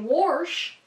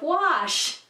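First: The word has a regional Pittsburgh pronunciation. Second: The word has a standard neutral pronunciation. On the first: This is how a Pittsburgh relative says it. "my grandma would say wash" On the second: This is the usual way to say it. "instead of wash"

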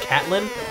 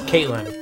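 First: The first syllable sounds like 'cat'. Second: The first syllable sounds like 'kate'. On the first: The speaker calls it wrong. "and you called it Catlin" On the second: The speaker calls it right. "no, it's Caitlin"

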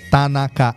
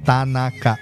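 No difference in how they are said.

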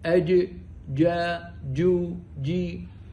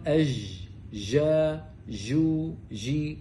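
First: The j sound is made near d. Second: The j sound flows without a full stop. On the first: "هذا شبه دال" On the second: "عيبها أنها ليست محبوسة لكن مكانها صحيح"

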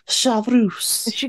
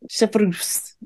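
First: The name is said with a French accent. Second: The name is said with a plain English accent.

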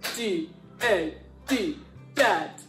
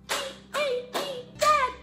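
First: It is said in a deep voice. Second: It is said in a squeaky voice.

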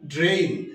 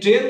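First: The vowel glides from 'e' to 'i'. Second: The vowel is a plain 'e' sound. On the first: The speaker calls it right. "উচ্চারণ হবে ড্রেইন" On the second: The speaker calls it wrong. "এই ড্রেন না হয়ে"

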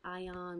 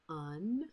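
First: The suffix is said with a full vowel, like 'ion'. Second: The suffix is said reduced, like 'un'. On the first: The speaker calls it wrong. "We don't pronounce it ion" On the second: The speaker calls it right. "we pronounce it un"

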